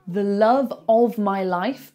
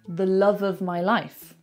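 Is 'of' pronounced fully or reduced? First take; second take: fully; reduced. First: The word 'of' is pronounced in full. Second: The word 'of' is reduced to a weak sound.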